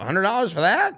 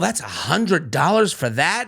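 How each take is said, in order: First: It is said in a shocked, questioning tone. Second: It is said in a calm, matter-of-fact tone. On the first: The price seems too expensive. "someone else might go" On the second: The price is simply stated as a fact. "two same sentence said two different ways"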